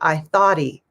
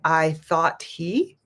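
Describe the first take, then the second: First: The words run together with a D-like sound. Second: Each word is said separately and clearly. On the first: "if we say it more naturally" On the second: "If we say it clearly"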